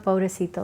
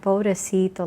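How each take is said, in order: First: It is said in a dismissive, offhand tone. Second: It is said in a pitying, sorrowful tone. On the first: The speaker does not really care about someone. "sort of like blowing somebody off" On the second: The speaker feels sorry for someone. "in a pitiable way, like they pity someone"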